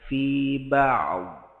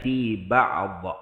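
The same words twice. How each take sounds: First: The final consonant is held without a bounce. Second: The final consonant is released with a bounce. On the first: The speaker calls it right. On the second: The speaker calls it wrong.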